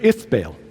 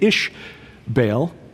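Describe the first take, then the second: First: The name begins with a 'th' sound. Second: The name begins with an 'sh' sound. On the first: This is the Phoenician form of the name. "The uh, Phoenicians said Ith" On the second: This is the Israelite form of the name. "the Israelites said Ish"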